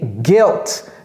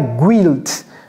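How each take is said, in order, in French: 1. Le U est muet, sans glissement après le G. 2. Le U se prononce, ce qui donne un glissement semblable au 'w'. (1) "comme s'il n'y avait pas de U là-bas" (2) "ne dites pas guilt"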